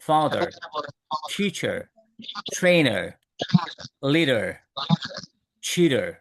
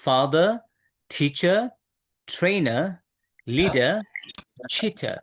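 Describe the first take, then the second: First: "father, teacher, trainer, leader, cheater" with sounded final r; American pronunciation. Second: "Father, teacher, trainer, leader, cheater" with silent final r; non-rhotic British "Father, teacher, trainer, leader, cheater"; British pronunciation. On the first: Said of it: "But আমেরিকানরা বলে". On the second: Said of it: "রটা এখানে silent হয়ে যায়". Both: Shown as a demonstration.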